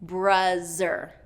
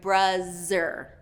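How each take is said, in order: First: The middle consonant is a z sound. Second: The middle consonant is a z sound.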